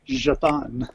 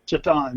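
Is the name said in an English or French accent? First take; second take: French; English. First: The name is said in a French accent. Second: The name is said in a plain English accent.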